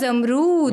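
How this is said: It starts with 'za' and has a long 'roo'. This is how people from Karachi say it. "Karachi के जो लोग हैं"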